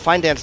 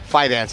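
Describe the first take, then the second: First: An N sound comes before the D. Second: No N sound comes before the D. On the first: The speaker calls it wrong. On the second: The speaker calls it right.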